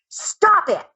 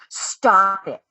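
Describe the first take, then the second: First: It is said in a firm, strong voice. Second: It is said in a weak, timid voice.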